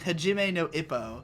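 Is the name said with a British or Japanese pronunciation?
British. It is said with British English vowels. The speaker calls it wrong. "he kept saying Hajime no Ippo because he was British"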